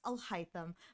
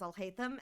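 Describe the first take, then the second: First: The name is said the way other languages say it. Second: The name is said the English dub way. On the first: "in some languages and dialects, it is pronounced" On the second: "the English dub pronounces it as"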